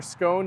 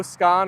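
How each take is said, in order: First: Second "scone" with long oh; "scone" rhyming with bone. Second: First "scone" with open ah; "scone" rhyming with gone. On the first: Streamer weighing regional versions, long-oh "scone". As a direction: say "scone" slowly with a round oh. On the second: Streamer weighing regional versions, "scone" as skon. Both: Shown as a demonstration. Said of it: "depends on where you live".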